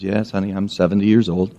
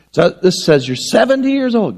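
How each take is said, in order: First: Put-on lower, softer old woman's voice; hushed, low granny voice; grandma. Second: Put-on higher child's voice on seventy years old; pitched-up child insisting; little girl. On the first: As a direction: admit it gently like a resigned grandma. Grandma answers, same words. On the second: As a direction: say it like a kid reading the card. Girl versus grandma, same words.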